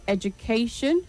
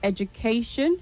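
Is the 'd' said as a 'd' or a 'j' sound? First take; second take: j; j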